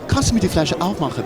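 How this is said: The request sounds soft and flirtatious. The speaker hopes for a deeper conversation. "it sounds a little like like you want the woman to do it, you know, to for a deeper conversation"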